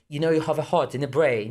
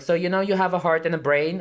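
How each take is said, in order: First: It is said in a British accent. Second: It is said in the speaker's plain accent.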